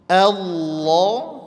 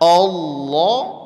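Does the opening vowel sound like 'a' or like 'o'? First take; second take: a; o. First: The opening vowel is a thin, spread 'a'. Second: The opening vowel is a rounded, 'o'-like sound. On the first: The speaker calls it right. "posisi senyum saja, posisi tipis saja a-nya" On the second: The speaker calls it wrong. "Jangan Allah"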